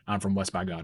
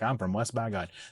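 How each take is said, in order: First: It is said in a flat, serious tone. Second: It is said in a playful, joking tone. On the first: The phrase is meant sincerely. "not joking around at all, stone cold, serious face" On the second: The phrase is used ironically for fun. "use it kind of ironically to be funny"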